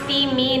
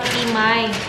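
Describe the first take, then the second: First: The name ends with an 'ee' sound. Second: The name ends with an 'eye' sound. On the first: The speaker calls it right. "yung Timi pala pag-pronounce" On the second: The speaker calls it wrong. "not Timay"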